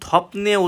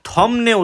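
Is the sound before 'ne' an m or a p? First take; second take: p; m. First: A p sound comes before the final syllable. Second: An m sound comes before the final syllable. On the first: The speaker calls it wrong. "উচ্চারণ থপনে উচ্চারিত হবে না" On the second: The speaker calls it right. "থমনে উচ্চারিত হবে"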